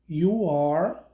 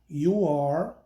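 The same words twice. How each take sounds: No difference in how they are said.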